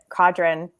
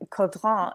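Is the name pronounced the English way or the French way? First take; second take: English; French. First: The name is pronounced with English sounds. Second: The name is pronounced with French sounds. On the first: "but Caudron" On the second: "it's Caudron in French"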